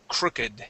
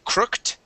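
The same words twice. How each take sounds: First: The -ed ending is a separate syllable. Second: The -ed ending is not a separate syllable. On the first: The speaker calls it right. "we pronounce that crooked" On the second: The speaker calls it wrong. "instead of being crooked"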